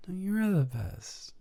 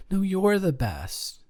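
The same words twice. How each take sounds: First: Same high gushing compliment, dropped much softer; corny compliment, softer. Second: Mock-gushing high compliment, full volume; corny compliment. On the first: Acted. Lover answering the compliment battle, softer mock coo. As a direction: coo it back, losing steam. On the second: Lover volleying a corny compliment back, mock-gushing. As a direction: toss it back like a sappy rival. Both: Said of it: "Corny im-, corny compliments battle".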